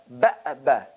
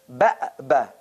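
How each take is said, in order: Both takes have the same delivery.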